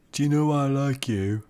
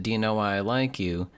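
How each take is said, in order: First: A higher, botched Liverpool accent try; attempted Liverpool accent. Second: Said in the usual way. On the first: Shown as a demonstration. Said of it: "No, that's not good".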